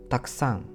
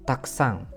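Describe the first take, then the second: The two takes are said the same way.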